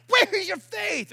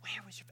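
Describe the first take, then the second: First: High, slow, indignant cry; acted exasperated demand; stern outburst. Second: Very soft, low murmur; soft, tender undertone; compassionate. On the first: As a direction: exclaim it in loud rebuke. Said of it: "I'm not sure how he said it". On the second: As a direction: say it gently, hushed. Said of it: "if he was, like, really compassionate". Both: Shown as a demonstration.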